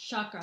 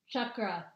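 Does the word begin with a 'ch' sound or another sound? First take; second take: other; ch. First: It begins with a sound other than 'ch'. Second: It begins with a 'ch' sound like 'Chuck'. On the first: The speaker calls it wrong. "not chakra" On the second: The speaker calls it right. "it's chakra, as in Chuck Norris"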